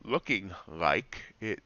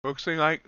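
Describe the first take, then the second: First: "Looking" said slowly and clearly with a proper -ing; "Looking", carefully pronounced and drawn out; careful correction. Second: "Looksing" said with an extra s sound; "Looksing" instead of "looking", slurred slip; mispronounced word. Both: Real, not acted. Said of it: "good English".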